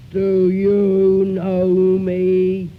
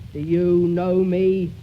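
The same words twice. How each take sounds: First: Very slow, loud and hollow; unearthly voice. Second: Slow, loud hollow question. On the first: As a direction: stretch each word out, ghostly and booming. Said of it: "Is that holler enough?". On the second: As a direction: ask it slowly, hollow and loud. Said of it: "in a hollow voice". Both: Shown as a demonstration.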